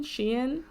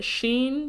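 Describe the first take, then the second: First: "Shein" split in two, SHEE-in; "Shein" as two syllables with rising tune; two-syllable pronunciation. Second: "Shein" said as one syllable, SHEEN; "Shein" as sheen, pitched up questioningly; one-syllable pronunciation. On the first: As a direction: say "Shein" as she-in, softly questioning. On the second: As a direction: say "Shein" to rhyme with green, as a question. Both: Shown as a demonstration. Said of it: "how do you pronounce it?".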